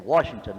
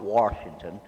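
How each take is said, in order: First: The first syllable has no r sound. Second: The first syllable has an r sound. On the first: "there is no R in Washington. I'm supposed to say Washington" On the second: "not Washington"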